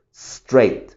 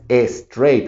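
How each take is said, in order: First: Straight begun on a long hissed S, no E; pure initial S. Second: Straight mispronounced as "es-treit"; wrong added vowel. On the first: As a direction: hold the S, then straight as one syllable. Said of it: "no pronuncio esa E". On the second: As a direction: put a clear E before the S of straight. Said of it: "por eso este no es straight". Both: Shown as a demonstration.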